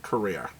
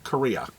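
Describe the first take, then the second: First: "Korea" with a New England intrusive R, ending in "-ear"; New England accent. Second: Said in the usual way. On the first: Shown as a demonstration. Comic shop host mocking own slip on "Korea", New England accent with R on the end. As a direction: say "Korea" low and soft as New England "Ko-REER". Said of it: "my New England accent starting to show". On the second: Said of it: "not Korea".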